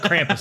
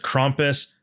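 First: It is said with an American pronunciation. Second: It is said with a German-style pronunciation.

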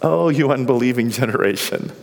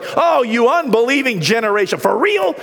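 First: It is said with a weary sigh. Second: It is said without a weary sigh.

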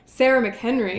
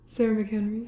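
First: The name is said proudly, with emphasis. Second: The name is said flatly, without pride.

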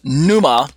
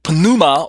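First: The word begins directly with an N sound. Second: The word begins with an audible P sound.

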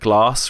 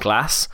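First: The vowel in the word is long. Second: The vowel in the word is short. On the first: "that long A" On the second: "rather than the short A"

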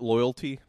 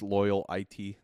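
First: The ending is a plain syllable, like 'tee'. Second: The ending is spoken as letters I and T. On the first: "does he pronounce it Loyalty?" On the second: "it's like pronounced Loyal IT"

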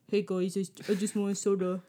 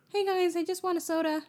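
First: It is said in a deep, crunchy voice. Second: It is said in a normal speaking voice. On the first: He remembers to speak in character. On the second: He forgot he is in character.

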